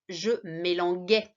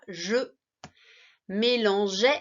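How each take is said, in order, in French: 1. La consonne avant la terminaison est un g dur. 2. La consonne avant la terminaison est un zh doux. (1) "Sinon, ça faisait je mélanguais" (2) "pour garder le son J"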